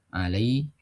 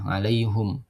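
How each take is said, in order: First: The vowel after the h is i. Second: The vowel after the h is u. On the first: The vowel adapts to the preceding vowel. "kalau kita kan alaihim" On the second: The pronoun keeps its original vowel. "bacaan hamzah tetap domir humnya tidak berubah"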